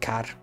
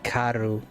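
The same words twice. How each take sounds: First: It is said quickly. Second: It is said slowly and carefully. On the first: "if you're saying fast" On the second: "if you're pronouncing it"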